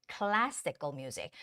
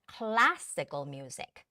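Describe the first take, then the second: No difference in how they are said.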